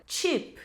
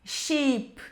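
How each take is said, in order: First: "cheap" with a T-SH start; stronger CH. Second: "sheep" slowly with a hushing SH start; soft SH, no T. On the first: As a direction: put a T before the SH in "cheap". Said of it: "como se tivesse um T antes". ("cheap" com som de "tch") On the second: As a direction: begin "sheep" with SH, no T before it. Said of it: "não vai ser sheep". ("sheep" com som de X) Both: Shown as a demonstration.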